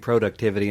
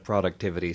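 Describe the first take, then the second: First: It is said with a Canadian pronunciation. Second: It is said with an American pronunciation. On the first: A habit picked up from others. "I've started saying productivity" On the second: The speaker's usual way. "instead of productivity"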